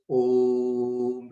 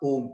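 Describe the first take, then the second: First: The vowel is held for a very long time. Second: The vowel is short and clipped. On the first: The speaker calls it right. "This is the real pronunciation of Om" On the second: The speaker calls it wrong. "It is not Om or that. That's wrong"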